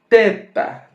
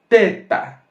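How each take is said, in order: Both takes have the same delivery.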